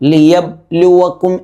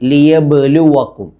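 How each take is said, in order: First: The b is closed quietly with no echo. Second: The b is released clearly with an echoing bounce. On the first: The speaker calls it wrong. "എന്ന് ഓതാതെ" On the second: The speaker calls it right. "വ്യക്തമാക്കി മുഴക്കി"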